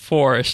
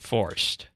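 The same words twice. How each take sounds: First: The word is said fully with two syllables. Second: The word is shortened to one syllable. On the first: "as it's supposed to be said" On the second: "shorten it up and say"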